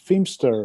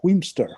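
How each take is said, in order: First: The name begins with an F sound. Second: The name begins with a W sound. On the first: This is the pronunciation that follows the spelling. "the P H is, is then becomes a, an F sound" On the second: This is how local people say it. "which we would call Wheemster"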